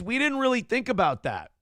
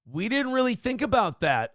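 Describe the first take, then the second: First: High, with didn't hit hardest and falling; stress on didn't. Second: High, with about hit hardest and falling; stress on about. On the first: Streamer mock-apologising to chat, high, with didn't stressed. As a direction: lean on didn't, high and sarcastic. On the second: Streamer repeating his mock apology to chat, about stressed. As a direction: lean on about, mock-contrite. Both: Shown as a demonstration.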